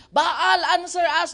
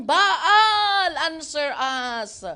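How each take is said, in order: First: Louder call to Baal; shouted plea. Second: Loud pleading call, then dropping; mock cry to Baal. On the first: Acted. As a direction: priests of Baal shouting at their silent god, loud plea. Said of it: "they shouted". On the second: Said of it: "they called on the name of Baal".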